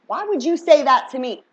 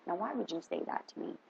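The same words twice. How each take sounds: First: Louder disbelief. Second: Quiet disbelief. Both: Shown as a demonstration.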